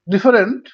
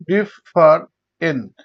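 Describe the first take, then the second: First: Said in the usual way. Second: different slowly in three separate beats; syllable by syllable. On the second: Shown as a demonstration. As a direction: pause after each syllable of different. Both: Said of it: "তিনবার উচ্চারণ করা হয়".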